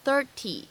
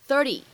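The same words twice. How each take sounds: First: The t is said as a clear, full stop. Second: The t is said as a quick soft flap. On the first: The speaker calls it wrong. "它不用读成30" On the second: The speaker calls it right. "美式发音当中呢，经常会有一个闪音的处理，我们呢会读成30 30 30"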